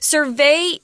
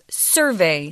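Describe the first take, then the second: First: The stress falls on the second syllable. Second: The stress falls on the first syllable. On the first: It is the verb. "Survey is the pronunciation for the verb form" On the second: It is the noun. "but the noun form is survey"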